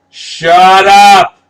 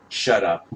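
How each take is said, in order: First: Much higher and louder, full-throated yell; furious shout. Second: Said in the usual way. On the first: Real, not acted. Fan screaming at the poster credits, furious shout. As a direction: scream it at the credits in real fury.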